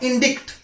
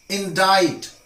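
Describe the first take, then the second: First: "indict" higher, with short i and a k sound. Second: "Indict" with long i and no c sound; silent C in indict. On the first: Teacher shows the mistake, "indict" said in-DIKT. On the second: Teacher corrects learners, "Indict" said in-DITE. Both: Shown as a demonstration. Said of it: "not indict".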